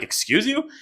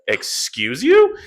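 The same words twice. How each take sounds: First: Much higher, offended "Excuse you?"; shocked retort. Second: Slow, louder "Excuse you?" with a rising end; indignant retort. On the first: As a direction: snap it back in disbelief, pitched way up. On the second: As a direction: call him out, offended and drawn out. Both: Retold or imitated. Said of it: "I was like".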